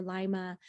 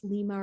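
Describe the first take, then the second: First: "Lima" said LYE-muh, first vowel as in "lime"; alternative pronunciation. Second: "Lima" said LEE-muh, long ee first; alternative pronunciation. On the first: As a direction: say "Lima" with a first syllable like "lie". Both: Shown as a demonstration. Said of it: "how to pronounce her last name".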